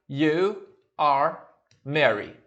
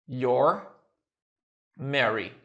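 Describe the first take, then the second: First: The first two words are said separately. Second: The first two words are joined into one.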